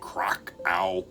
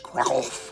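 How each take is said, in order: First: The name is said with an American pronunciation. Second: The name is said with a native Polish pronunciation. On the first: This is how Americans commonly say it. "what Americans say" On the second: This is the correct local pronunciation. "correct pronunciation, I believe"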